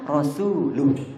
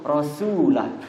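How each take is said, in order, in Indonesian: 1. Vokal sebelum h terakhir adalah u. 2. Vokal sebelum h terakhir adalah a. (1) "Harusnya Rasuluh" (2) "itu salah"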